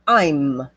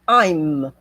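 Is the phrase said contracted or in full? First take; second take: contracted; contracted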